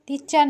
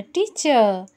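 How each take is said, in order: First: টিচার said with a clear final r, tee-char; wrong r pronounced. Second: টিচার said without the final r, tee-cha. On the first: Mother showing the child the wrong way, টিচার with final r. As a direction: sound the r at the end of টিচার. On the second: মা শিশুকে শেখাচ্ছে, টিচার শেষে র ছাড়া. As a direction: drop the r at the end of টিচার. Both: Shown as a demonstration. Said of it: "র এর উচ্চারণ হবে না".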